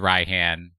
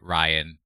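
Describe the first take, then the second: First: The name is said as 'Rai-han', with 'h'. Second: The name is said like 'Ryan', without 'h'. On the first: The speaker calls it wrong. "you went with Raihan" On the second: The speaker calls it right. "y'all could have said Ryan"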